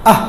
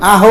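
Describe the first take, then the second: First: আহ ending on a bare breath of h; closed final h. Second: আহ with a vowel voiced after the h, as "aho"; added vowel. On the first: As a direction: stop আহ on the h with no vowel after. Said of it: "নিচে একটা হসন্ত দেই". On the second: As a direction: let the h of আহ open into an o. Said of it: "আহ বলি না". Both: Shown as a demonstration.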